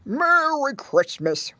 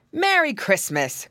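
First: Put-on grunted old pig greeting; slow, slurred, higher character voice; Grandpa Squealer. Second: Higher, hearty cried greeting; lifted, cheery character cry; Uncle Wiggily. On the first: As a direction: grunt it out slowly like an aged pig. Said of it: "grunted Grandpa Squealer". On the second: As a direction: clear rabbit uncle calling out. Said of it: "cried Uncle Wiggily". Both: A narrator's reading.

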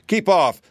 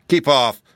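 First: Loud, high-pitched warning cry. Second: Loud, firm warning. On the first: Tin Soldier springing to defend his friend, warning shrilly high. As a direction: call it out high and forceful. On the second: Tin Woodman defending his friend from the beast, warning. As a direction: order it back loudly, pitch slightly raised. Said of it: "said the Tin Woodman warningly". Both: A narrator's reading.

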